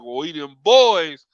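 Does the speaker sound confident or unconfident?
confident. It is said strongly, with conviction. The speaker believes in the team. "it wasn't uh"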